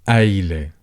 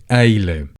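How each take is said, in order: Both takes have the same delivery.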